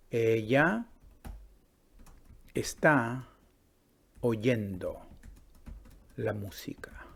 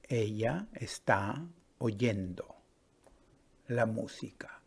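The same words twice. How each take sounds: First: Each word set apart by long pauses, "Ella" lifted and "la música" fading to a whisper; slow word-by-word dictation. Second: Slow repeat. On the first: Teacher dictating to the class, word by word. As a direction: say it word by word for students to copy. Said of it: "yo digo". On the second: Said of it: "¿Sí?". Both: Shown as a demonstration.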